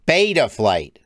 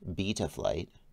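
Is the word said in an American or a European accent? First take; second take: American; European. First: It is said in an American accent. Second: It is said in a European accent. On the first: "Americans like our mouths to be open when we talk" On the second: "We're going to use the European pronunciation"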